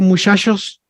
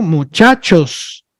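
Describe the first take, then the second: First: Muchachos with each ch softened to sh, mushashos; northern Mexican pronunciation. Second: Muchachos slowly, with a firm ch as in church; correct pronunciation. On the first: Teacher showing how the north says it, muchachos as mushashos. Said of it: "en el norte hay, muchas veces acostumbramos a decir". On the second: Teacher showing the standard form, muchachos with crisp ch sounds. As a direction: say muchachos carefully, both ch sounds fully stopped. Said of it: "así se tiene que pronunciar". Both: Shown as a demonstration.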